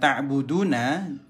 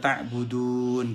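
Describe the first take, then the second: First: The word ends with a final 'a' vowel. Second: The word stops on the final 'n' sound. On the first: The reading continues without stopping. "sahabat perhatikan" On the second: The reader pauses at this word. "Jika wakaf dibaca"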